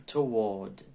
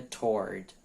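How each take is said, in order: First: British "toward", split as to-WAWD; British pronunciation. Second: American-style "toward", run together as "tord"; American pronunciation. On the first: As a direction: say toward in two syllables, "tuh-WAWD". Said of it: "No inglês britânico". ("toward" à britânica, em duas sílabas, "tu-uód") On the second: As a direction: say toward as one syllable, "tord", with the R sounded. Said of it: "no inglês americano é toward". ("toward" à americana, numa sílaba só, "tord") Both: Shown as a demonstration.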